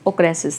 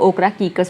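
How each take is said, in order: First: It is said smoothly, with the ending blended together. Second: It is said in separate chunks, following the spelling. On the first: This is the proper way to say it. "अच्छे से बोलोगे तो" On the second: This way helps remember how it is spelled. "ओकरा कीकस बोल लेना ताकि आपको उसका स्पेलिंग याद हो जाए"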